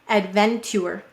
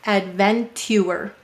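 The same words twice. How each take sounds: First: It is said quickly with a ch sound. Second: It is said slowly with a separate t sound. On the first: "let's say it faster" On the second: "sound out this word carefully"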